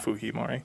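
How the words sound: The name has a Spanish-style pronunciation. "because he is Latin American culturally, they pronounce it"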